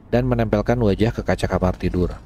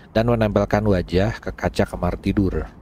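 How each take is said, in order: No difference in how they are said.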